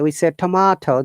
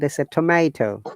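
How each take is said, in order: First: It is said in a British accent. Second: It is said in an American accent. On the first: "we say" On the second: "they say"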